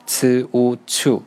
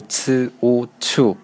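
First: 呲乌翘 drawn out slowly, each sound separate; slow drill. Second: Said in the usual way. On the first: Shown as a demonstration. Teacher repeats the syllable slowly for students to follow. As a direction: spell 呲乌翘 out slowly for learners. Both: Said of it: "第四呢是".

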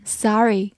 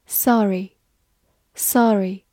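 First: Sorry with an open American vowel, SAH-ree; American pronunciation. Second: Sorry with a rounded British-style vowel, SAW-ree; non-American pronunciation. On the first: Teacher showing learners the variant, sorry in American SAH-ree. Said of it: "美式发音". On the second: Teacher drilling a word before the American version, Sorry said SAW-ree. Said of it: "美式发音，sorry". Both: Shown as a demonstration.

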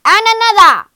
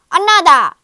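First: Bigger, higher roaring shout; growled demand. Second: Loud, high growling shout; growled demand. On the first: Giant greedy for still more eggs, escalating roar. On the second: Giant wants more golden eggs, growled shout. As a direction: roar the demand greedily. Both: A narrator's reading. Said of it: "growled the giant".

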